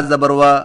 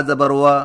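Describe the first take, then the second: Both takes have the same delivery.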